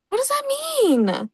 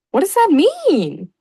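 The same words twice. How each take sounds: First: Very high slow squeak of confusion; squeaky baffled. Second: Slow, higher, louder baffled question. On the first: Pretend. Repeated much higher. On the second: Real, not acted. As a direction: ask it in disbelief.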